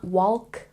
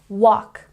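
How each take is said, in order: First: The L is sounded. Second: The L is silent. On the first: The speaker calls it wrong. "It's not walk" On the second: The speaker calls it right. "the L is silent"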